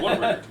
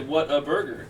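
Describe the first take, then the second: First: It is said quickly, run together. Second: It is said slowly, word by word.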